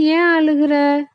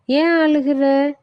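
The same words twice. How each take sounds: First: Brinjal's voice. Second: The coconut asks kindly why he cries; tender coconut's voice. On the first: Brinjal asks the crying boy why, high cartoon voice. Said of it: "கத்தரிக்காய் பார்த்து". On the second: Tender coconut asks the crying boy why, high cartoon voice. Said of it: "இளநீர் கேக்குது". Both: Acted.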